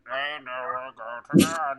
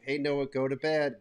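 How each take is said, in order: First: It is said in a distorted, scary voice. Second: It is said in a normal voice.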